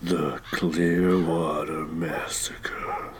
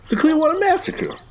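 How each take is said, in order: First: It is said slowly in a sinister tone. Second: It is said casually, like no big deal.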